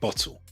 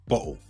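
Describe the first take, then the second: First: The middle T is clearly pronounced. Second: The middle T is dropped.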